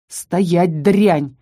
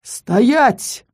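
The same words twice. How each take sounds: First: Restrained, understated shout. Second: Menacing, booming command; thundering menace. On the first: Count halting the little beast, restrained shout. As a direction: order it sharply without much volume. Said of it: "закричал граф". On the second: Unseen newcomer halting the count, menacing boom. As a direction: thunder the order to halt. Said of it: "прогремело грозным голосом". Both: A narrator's reading.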